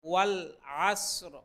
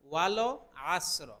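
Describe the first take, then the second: First: The l ends cleanly with no extra vowel. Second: An extra vowel sounds after the l. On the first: The speaker calls it right. "এখানে লামের মধ্যে কোনো কলকলা হবে না" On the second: The speaker calls it wrong. "অনেকের হয় এরকম ওয়ালো আসর, ওয়ালো বললে সম্পূর্ণ ভুল হবে"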